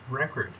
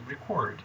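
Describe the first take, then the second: First: The stress is on the first syllable. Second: The stress is on the second syllable. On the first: The word is used as a noun. "When this word is a noun, it is pronounced record" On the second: The word is used as a verb. "But when it is a verb, it is pronounced record"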